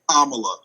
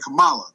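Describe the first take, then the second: First: The name begins like the word comma. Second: The name does not begin like comma. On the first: The speaker calls it right. "it's like like the comma and then the la" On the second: The speaker calls it wrong. "I kept wanting to call her Kamala"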